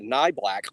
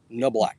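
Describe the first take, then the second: First: The first syllable sounds like nye. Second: The first syllable sounds like no. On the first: The speaker calls it wrong. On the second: The speaker calls it right.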